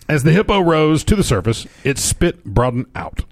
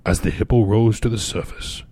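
First: Higher, livelier reread of the line; fun storyteller voice. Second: Said in the usual way. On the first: Shown as a demonstration. Cohost rereading a news line in a fun voice. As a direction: give the hippo line some showman flair. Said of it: "but the voice was so fun". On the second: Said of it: "this is not him talking anymore".

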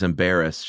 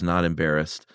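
First: Said in the usual way. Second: "Not" leaned on, correcting the word; stress on not. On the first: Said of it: "um, he says". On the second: Retold or imitated. Quoting her correction, light stress on "Not". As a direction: hit "Not" before "embarrassed". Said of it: "She goes".

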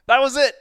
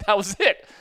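First: Higher and louder, the final word "it" hammered home; 把 "That was it" 再喊一遍，更高更响; louder emphatic. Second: Emphatic. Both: Real, not acted.

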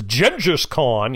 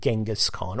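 First: Genghis as "Jenjus", drawn out in mockery; mocking John Kerry's pronunciation. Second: Said in the usual way. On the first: Podcaster mocking a politician's "Jenjus Khan" pronunciation. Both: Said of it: "or as John Kerry says".

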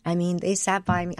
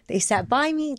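First: Said in the usual way. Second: Words catching as feeling breaks through; emotional. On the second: Real, not acted. Tells the host about her family, emotion rising higher. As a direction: voice lifting higher with real emotion. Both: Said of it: "Oh, I'm gonna get all emotional".

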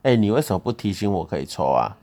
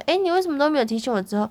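First: Louder, blaming question; imitating his accusing tone. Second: Mild retold question. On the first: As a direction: show how he really said it, accusing. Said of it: "你的语气不是这样". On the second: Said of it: "我只是讲说".

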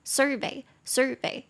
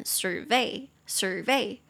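First: "survey" as SUR-vey, first syllable higher; stress on first syllable. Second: "survey" as sur-VEY, stress on the end; stress on second syllable. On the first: English teacher modelling the noun for students, front stress on "survey". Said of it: "它重音是在前面". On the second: English teacher modelling the verb for students, end stress on "survey". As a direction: slowly lean on the last syllable of "survey", as a verb. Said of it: "它的重音就會跑到後面". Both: Shown as a demonstration.

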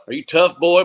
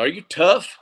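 First: Higher Southern coach voice falling firmly on tough; a lightly imitated Southern coach pressing the point; Southern coach challenge. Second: Higher Southern coach voice rising on tough; a lightly imitated Southern coach testing a player; Southern coach challenge. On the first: Coach pressing a player in a light Southern accent. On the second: Coach challenging a player in a light Southern accent. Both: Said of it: "a very distinct Southern accent".

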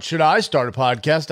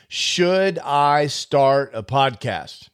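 First: "I" stressed, question rising at the end. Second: "Should" leaned on, slow, falling at the end; stress on should. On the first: Podcaster contrasting the question, stressing "I". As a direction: put the weight on "I", as if it's about you. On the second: Podcaster asking whether to start, stressing "Should". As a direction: lean hard on "Should", asking whether at all. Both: Shown as a demonstration.

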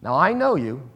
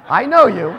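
First: Said in the usual way. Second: Louder emphasis. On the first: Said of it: "repeats phrase, building". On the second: Shown as a demonstration. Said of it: "repeats phrase louder".

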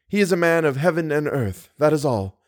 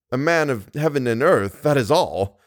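First: Put-on lightly raised young woman's voice, stating it simply; earnest heroine. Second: Incredulous suitor repeating her words; scornful echo. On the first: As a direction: say it sincerely, a little high. Christine's statement, echoed by Raoul. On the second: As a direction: throw her words back with mild scorn. Raoul echoes her in disbelief. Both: A narrator's reading.

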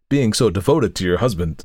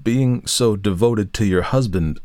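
First: Said in the usual way. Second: Slow, hesitant repetition; hesitating. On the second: A narrator's reading. Lawyer repeats himself after her rebuke, hesitantly. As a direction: repeat it haltingly, unsure of your footing. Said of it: "repeated in a hesitating manner".

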